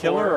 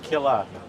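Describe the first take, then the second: First: The final R sound is fully pronounced. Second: The final R sound is dropped.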